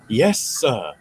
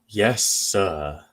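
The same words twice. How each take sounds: First: It is said with enthusiasm. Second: It is said without enthusiasm.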